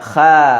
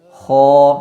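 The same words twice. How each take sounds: First: The vowel is a thin, clear a sound. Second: The vowel is a thick, o-like sound. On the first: The speaker calls it wrong. "Jadi tidak dibaca kha" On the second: The speaker calls it right. "mesti dibaca dengan vokal o"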